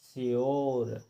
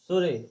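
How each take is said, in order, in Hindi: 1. यह shy से शुरू होता है और r पर खत्म होता है। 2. यह s से शुरू होता है और स्वर पर खत्म होता है। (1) "हमें पढ़ना है यो लगा करके श्योर" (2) "उसको सुरे नहीं पढ़ना है"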